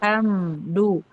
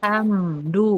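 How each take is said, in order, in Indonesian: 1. Bunyi m diucapkan penuh dan jelas. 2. Bunyi m diucapkan penuh dan jelas.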